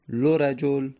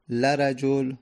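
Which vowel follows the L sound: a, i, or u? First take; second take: u; a. First: The L is followed by a u vowel. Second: The L is followed by an a vowel. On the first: "دمه" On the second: "فتحه"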